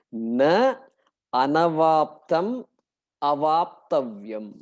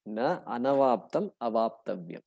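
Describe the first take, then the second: First: Slow, each word set apart with pauses; split carefully. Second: Said in the usual way. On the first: Shown as a demonstration. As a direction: break "Na anavaptam avaptavyam" into its words, slowly. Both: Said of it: "Okay, split carefully".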